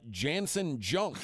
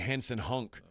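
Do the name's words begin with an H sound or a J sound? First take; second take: J sound; H sound. First: Both words begin with a J sound. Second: Both words begin with an H sound.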